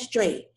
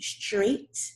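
First: The final T sound is dropped. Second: The final T sound is clearly audible. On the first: The speaker calls it wrong. "don't say number 1, straight" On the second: The speaker calls it right. "I want to hear that T. Make sure you pronounce that T"

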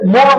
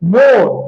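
First: The vowel is said without an 'o' sound. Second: The vowel is said with an 'o' sound. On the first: The speaker calls it wrong. "আমরা বলি না যে মন বলি না" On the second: The speaker calls it right. "আমরা বলি মন, ... ও একটা চলে আসছে"

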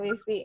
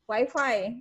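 First: The word is said with Indonesian pronunciation. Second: The word is said with English pronunciation. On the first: "Kalau kita mau pakai bahasa Indonesia itu kan wifi gitu ya" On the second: "mau pakai bahasa wifi. Inggris"

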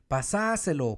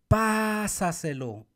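First: The stress is on the second syllable. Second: The stress is on the first syllable.

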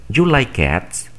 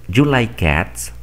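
The two takes are said the same way.

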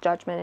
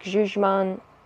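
First: The word is said with an English pronunciation. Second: The word is said with a French pronunciation. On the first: This is the name used in English. "it's called judgment in English" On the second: This is the name used locally. "It's like a French pronunciation"

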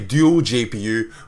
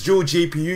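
First: Dual is said 'doo-ul', not like jewel. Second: Dual is said like 'jewel', Australian style.

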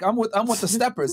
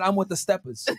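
First: The R at the end of steppers is pronounced. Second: The R at the end of steppers is dropped. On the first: The speaker calls it wrong. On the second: The speaker calls it right.

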